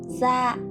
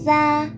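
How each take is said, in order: First: The syllable is said with a low, heavy, glottal tone. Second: The syllable is said with a level tone.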